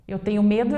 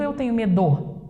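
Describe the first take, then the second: First: "medo" stressed on me; correct first-syllable stress. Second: "medo" accented on do, the last syllable; shifted final stress. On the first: Teacher offers the right option, stressing me in "medo". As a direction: lean on me in "medo". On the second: Teacher tests the wrong option, stressing do in "medo". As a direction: hit the end of "medo". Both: Shown as a demonstration. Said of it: "Então, é o me".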